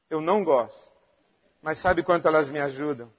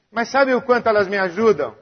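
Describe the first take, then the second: First: Much softer and lower; low, soft rhetorical question; quiet. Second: Said in the usual way. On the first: Real, not acted. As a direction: draw them in with a hush. Rhetorical question, then quieter repeat.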